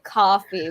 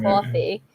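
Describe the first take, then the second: First: "coffee" with a Boston local's open vowel; Boston accent. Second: "coffee" said almost as "cawfee"; New York CAW vowel. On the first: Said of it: "people from Boston would say". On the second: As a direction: give "coffee" a rounded "caw" first syllable. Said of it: "C A W almost". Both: Shown as a demonstration.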